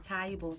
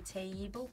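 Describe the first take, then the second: First: It is said in a Brummie accent. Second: It is said in a Scouse accent.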